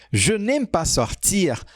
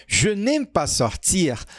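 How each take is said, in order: Both takes have the same delivery.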